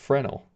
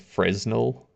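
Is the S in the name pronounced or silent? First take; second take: silent; pronounced. First: The S in the middle is silent. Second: The S in the middle is pronounced. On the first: "apparently it's pronounced Fresnel" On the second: "I go with Fresnel"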